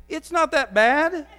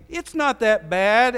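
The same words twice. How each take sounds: First: Much higher and louder, slowed down, like you mean it; emphatic shout. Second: Mock excuse. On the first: Preacher urging the congregation, loud emphatic call. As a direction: belt it out like you truly mean it. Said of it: "So say it like you mean it". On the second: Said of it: "and I say". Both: Shown as a demonstration.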